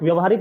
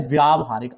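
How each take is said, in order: First: व्यावहारिक said "vya-va-harik"; wrong short vowel. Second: व्यावहारिक said "vyaa-va-harik"; correct long vowel. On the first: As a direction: keep the first a of व्यावहारिक short. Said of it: "नहीं होता है शब्द". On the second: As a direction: lengthen the first aa in व्यावहारिक. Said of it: "आका डंडा होता है". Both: Shown as a demonstration.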